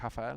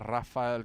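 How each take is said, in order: First: The name begins with an H-like sound. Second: The name begins with an English R sound.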